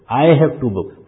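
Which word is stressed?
I. The stress falls on the word I.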